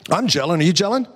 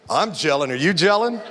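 First: It is said plainly, without a smile. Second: It is said with a smile.

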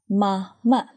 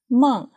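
First: The word is said with two full syllables. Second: The word is said as one short syllable.

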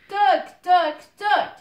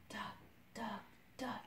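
First: It is said very loudly. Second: It is said very softly.

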